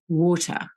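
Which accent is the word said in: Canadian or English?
English. It is said in an English accent. "over there they expect to hear water"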